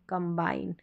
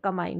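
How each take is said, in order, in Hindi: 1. B की आवाज़ साफ़ बोली जाती है। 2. B की आवाज़ छोड़ दी जाती है। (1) "एम का भी साउंड आएगा और बी का भी साउंड आएगा" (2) "बी साइलेंट नहीं है कि कमाइन पढ़ दिया, कमाइन नहीं"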